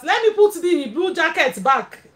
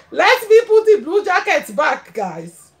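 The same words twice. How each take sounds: First: Said in the usual way. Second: Repeats it through a real laugh; giggling as she says it. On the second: Real, not acted. Streamer to her viewers, laughing it out.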